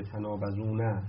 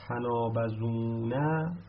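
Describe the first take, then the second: First: Said in the usual way. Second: تنابزونه drawn out slowly, syllable by syllable; slow spelled-out demo. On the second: Shown as a demonstration. Teacher slowly spelling تنابزونه out for students. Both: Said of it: "اینجوری بوده".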